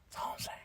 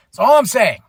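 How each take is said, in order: First: That's all I'm saying whispered with no voice. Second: Said in the usual way. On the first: Shown as a demonstration. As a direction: whisper it like a secret aside.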